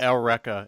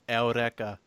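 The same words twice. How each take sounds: First: The r is a plain English-style r. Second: The r is a quick tap of the tongue. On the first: The speaker calls it wrong. "He said Eureka" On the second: The speaker calls it right. "It's Eureka. ... click the tongue"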